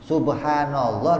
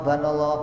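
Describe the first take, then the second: First: The word is said in full, every syllable. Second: The word is rushed, its first syllable dropped.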